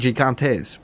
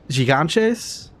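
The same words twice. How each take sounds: First: The T sound is a clear, strong T. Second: The T sound is softened, not a clear T. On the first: The speaker calls it right. "with more of a T sound" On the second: The speaker calls it wrong. "I said gigantes to say giants"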